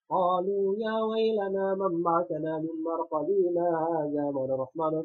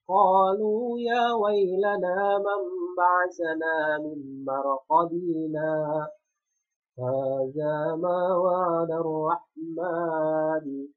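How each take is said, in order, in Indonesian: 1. Bacaannya terus berjalan tanpa jeda setelah marqadina. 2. Ada jeda singkat tanpa napas setelah marqadina. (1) "dia tidak mau berhenti sejenak" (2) "berhenti sejenak tanpa mengambil napas"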